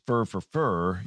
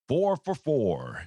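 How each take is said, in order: First: The words are clipped to a reduced 'fer' sound. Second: Each word is pronounced fully and carefully. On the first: "you wouldn't say" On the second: "I try to say he's four for four, and that even sounds kind of over enunciating"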